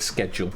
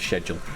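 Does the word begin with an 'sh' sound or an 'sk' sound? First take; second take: sk; sh. First: The word begins with an 'sk' sound. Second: The word begins with an 'sh' sound. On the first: "schedule with a K" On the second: "rather than"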